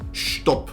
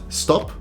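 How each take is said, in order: First: The S has a slight 'sh'-like glide. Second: The S is plain, with no added sound. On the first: The speaker calls it right. "add in a little J sound there" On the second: The speaker calls it wrong. "It's not stop"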